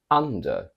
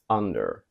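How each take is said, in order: First: It is said in a British accent. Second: It is said in an American accent.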